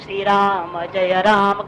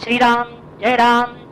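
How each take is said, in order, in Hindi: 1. Ram में पूरा अंतिम 'a' स्वर है। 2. Ram अंत में बिना स्वर वाला व्यंजन है। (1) "वो सही आकार उच्चारण कर रहा है" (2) "राम को हलंत कर दिया"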